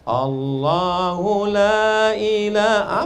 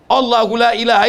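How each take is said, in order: First: It is recited quietly and softly. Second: It is recited loudly and forcefully. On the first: The speaker calls it wrong. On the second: The speaker calls it right.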